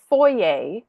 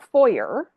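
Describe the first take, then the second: First: It ends in an ay sound, French-style. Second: It ends in an er sound, English-style. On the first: This is how it is said in Canada. "because we have French as an official language, like we grew up saying foyer" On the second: This is not how it is said in Canada. "not foyer"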